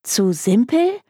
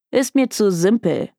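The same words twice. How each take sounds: First: Higher, rising echo question; incredulous. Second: Bored brush-off ending on a fall; dismissive. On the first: Client echoing the detective's refusal, incredulous. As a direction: throw it back in disbelief. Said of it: "Sie starrte ihn fassungslos an". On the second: Detective turning down a client's case, dismissive. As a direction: wave the case away as beneath you. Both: A narrator's reading.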